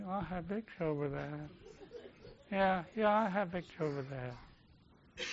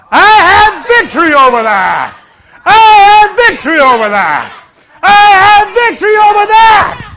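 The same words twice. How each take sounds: First: Feeble, much softer mock declaration; half-hearted. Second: Full-force, high rallying shout; authoritative shout. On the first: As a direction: mimic a limp, dragging, noncommittal recital. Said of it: "I don't want you to just". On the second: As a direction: shout it like a policeman stopping a crowd. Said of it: "speak like a spiritual policeman". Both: Shown as a demonstration.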